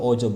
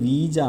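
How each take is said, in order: First: The word begins with an 'oh' sound. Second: The word begins with a 'wee' sound. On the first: The speaker calls it wrong. "But it's not ഓജോ board" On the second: The speaker calls it right. "ഇത് വായിക്കേണ്ടത് വീജ എന്നാണ്"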